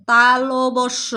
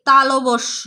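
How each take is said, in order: First: তালবস্য stretched very slowly, syllable by syllable; very slow repeat. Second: Said in the usual way. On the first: Shown as a demonstration. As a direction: drag তালবস্য out for pupils to copy. (খুব ধীরে টেনে তালবস্য বলা) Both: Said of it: "আমার সাথে আবার বলো".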